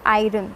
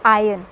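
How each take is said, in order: First: Iron with the r sounded; "iron" said eye-ron; wrong iron. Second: Iron as eye-urn; "iron" said eye-uhn, no rolled r; correct iron. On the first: Teacher showing the mistake: eye-ron. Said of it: "but this is not iron". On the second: Teacher modelling the word: eye-uhn. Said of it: "it is". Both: Shown as a demonstration.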